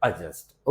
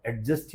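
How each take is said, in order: First: एडजस्ट as "a-just", no d heard; correct pronunciation. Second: एडजस्ट as "ad-just", d sounded; common mispronunciation. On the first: Shown as a demonstration. Teacher correcting what everyone says, correct pronunciation. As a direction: let the d go silent in एडजस्ट. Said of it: "right pronunciation is". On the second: Retold or imitated. Teacher quoting what everyone says, mispronounced. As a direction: keep a hard d in एडजस्ट. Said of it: "सुना होगा एडजस्ट ही बोलते हैं".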